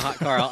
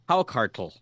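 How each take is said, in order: First: The first syllable sounds like 'hot'. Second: The first syllable sounds like 'how'. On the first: The speaker calls it wrong. "It's not a hot Carl" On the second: The speaker calls it right. "I actually looked up how to pronounce this"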